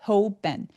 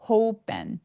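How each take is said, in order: Both takes have the same delivery.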